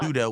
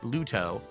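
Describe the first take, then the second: First: The middle consonant is a soft D. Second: The middle consonant is a hard T. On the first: "Ludo with a D" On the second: "I was pronouncing it Luto"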